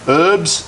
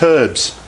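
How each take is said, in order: First: The word begins without an h sound. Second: The word begins with an h sound.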